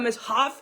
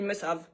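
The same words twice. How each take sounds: First: The h sound in 'have' is pronounced. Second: The h sound in 'have' is dropped. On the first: This is how it would sound in English. "On dit pas must-have" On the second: This is how French speakers say it. "on dit must-have. Genre si le H il n'existe pas"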